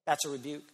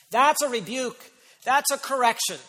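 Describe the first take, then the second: First: Quieter, settled, gentle statement; tender rebuke. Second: Louder, higher, deliberate declaration; forceful rebuke. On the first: Preacher softening the rebuke for his congregation, tender. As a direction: ease off into a pastoral tone. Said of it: "It's a tender rebuke". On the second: Preacher naming the correction to his congregation, forceful. Emphatic rebuke, then tender one. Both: Shown as a demonstration.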